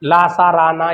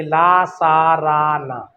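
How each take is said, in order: First: Said in the usual way. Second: "ला सा रा ना" spelled out very slowly, one syllable at a time; each of "ला सा रा ना" drawn out so students can write it down; slow dictation. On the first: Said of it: "ये वत्स कहलाते हैं". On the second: Shown as a demonstration. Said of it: "note करिए".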